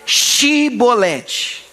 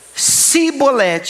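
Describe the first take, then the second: First: The word begins with an sh sound. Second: The word begins with an s sound. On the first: The speaker is one of their own people. The speaker calls it right. "Então fala aí, Shibolete" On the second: The speaker is from the enemy tribe. The speaker calls it wrong. "ele não conseguia falar shh, saía sss"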